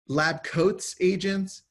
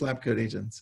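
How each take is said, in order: First: An s sound follows the word coat. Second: No s sound follows the word coat. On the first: The speaker calls it wrong. "people people always say lab coats agents" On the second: The speaker calls it right. "no, no, no, it's just it's just lab coat agents"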